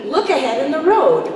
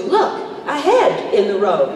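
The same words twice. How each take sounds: First: "Look ahead" run together as one phrase; correct emphasis. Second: "Look" alone, then "ahead" slowly as "a head"; wrong emphasis. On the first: Actress shows the right reading, "Look ahead" joined up. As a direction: say "Look ahead" briskly as a warning, no break. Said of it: "it should be". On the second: Actress shows the misreading, slow, "ahead" split from "Look". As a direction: break after "Look" and punch "ahead" like a found head. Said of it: "as opposed to". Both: Shown as a demonstration.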